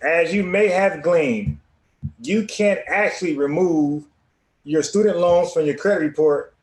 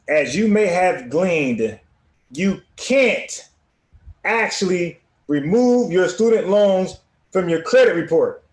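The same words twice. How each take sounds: First: It is read fast. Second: It is read slowly.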